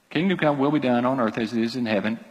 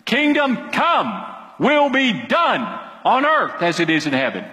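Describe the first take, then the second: First: Said in the usual way. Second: Emphatic command. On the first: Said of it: "It's imperative". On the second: Shown as a demonstration. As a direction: pray it as a string of orders. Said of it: "it's just a command".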